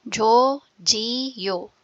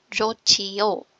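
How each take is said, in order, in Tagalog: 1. Ang gitnang katinig ay plain na tunog ng j. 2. Ang gitnang katinig ay aspirated na tunog ng ch.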